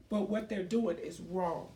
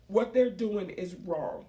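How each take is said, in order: First: Said in the usual way. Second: Slow repeat with weight on "they're"; emphatic repeat. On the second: Real, not acted. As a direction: lean on "they're" in "What they're doing is wrong".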